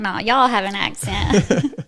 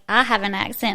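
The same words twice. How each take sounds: First: Slow comeback leaning on "y'all"; stress on Y'ALL. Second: Emphasis on "I", rest at usual pitch; stress on I. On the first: Southerner answering people about accents, stress on "y'all". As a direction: draw it out, putting the weight on "y'all". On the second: People remarking on her accent, stress on "I". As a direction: lean on the word "I". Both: Retold or imitated.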